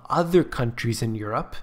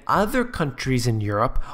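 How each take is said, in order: Both takes have the same delivery.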